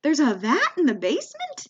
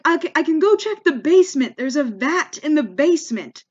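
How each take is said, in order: First: VAT lifted high, BASEMENT rising in disbelief; baffled echo with "basement" rising at the end; confused question. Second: Mock-panicked offer, raised pitch and louder; retold fluster, pushed up high; flustered clerk. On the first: Retold or imitated. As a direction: repeat it as a puzzled question, pitch up on "vat" and "basement". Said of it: "I'm a little confused". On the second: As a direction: imitate a rattled clerk scrambling to help. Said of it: "the guy, he freaks out".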